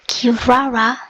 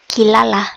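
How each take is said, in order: First: The name is said with R sounds. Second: The name is said with L sounds. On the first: "a new character by the name of Kirara" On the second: "how I prefer to pronounce that because L's and R's are the exact same in Japanese"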